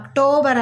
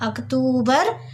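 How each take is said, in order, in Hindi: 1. दूसरा स्वर 'o' जैसा बोला जाता है। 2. दूसरा स्वर 'oo' जैसा बोला जाता है। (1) "ಅಕ್ಟೋಬರ್ ಅಲ್ಲ" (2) "ಅಕ್ಟೂ ಅಕ್ಟೂಬರ್"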